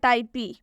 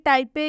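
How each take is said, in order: First: The word ends with an added ee sound. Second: The word ends with an added ay sound. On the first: "ना कि टाइपे या टाइपी" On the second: "ना कि टाइपे या टाइपी"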